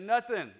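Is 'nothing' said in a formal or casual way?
casual. It is said casually, like 'nuthin'.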